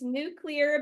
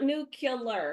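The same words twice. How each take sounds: First: The word follows the sounds of 'nucleus'. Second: The word is pronounced differently from 'nucleus'. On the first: The speaker calls it right. "It is nuclear because it is dealing with the nucleus" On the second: The speaker calls it wrong. "It is not nuclear"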